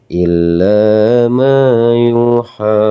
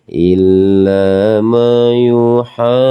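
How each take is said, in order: The two takes are said the same way.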